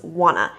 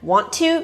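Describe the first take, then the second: First: The words blend into one reduced word. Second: Both words are said fully and separately. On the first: "Wanna is the connected speech form of want to" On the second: "want to becomes wanna"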